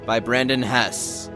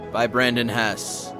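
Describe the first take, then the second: No difference in how they are said.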